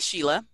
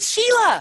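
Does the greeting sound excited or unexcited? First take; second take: unexcited; excited. First: The greeting sounds flat and unexcited. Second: The greeting sounds lively and excited. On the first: The speaker doesn't really care about the birthday. "does that sound like I'm really excited that it's her birthday? Probably not" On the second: The speaker is genuinely happy about the birthday. "my tone and delivery changed everything"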